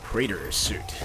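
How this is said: It is said in an American accent. "In America, it's something like"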